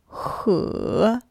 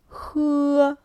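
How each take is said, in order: First: The pitch dips down then rises. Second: The pitch stays high and level. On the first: "Третий тон вниз-вверх. Долгий переспрос" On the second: "Первый тон высокий, ровный"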